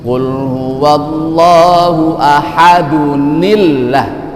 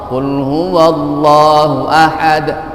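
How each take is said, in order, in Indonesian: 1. Tersambung dengan tambahan bunyi n. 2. Berhenti dengan jelas pada huruf d terakhir. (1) "waktu kita sambung atau berwasal ... maka dibaca ni" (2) "Ketika kita berwakaf"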